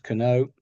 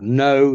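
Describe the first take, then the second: First: The k is pronounced. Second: The k is silent. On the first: The speaker calls it wrong. "not kano" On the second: The speaker calls it right. "silent letters"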